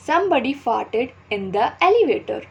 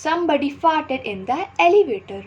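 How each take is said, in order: First: Slow, carefully spaced teaching read; slow example read. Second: Slow repeat, pitched higher; higher slow example read. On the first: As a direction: read the example sentence slowly for learners. (धीमे-धीमे उदाहरण पढ़ना) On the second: (ऊँची आवाज़ में धीमे दोहराना) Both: Shown as a demonstration. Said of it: "Fart means पाद".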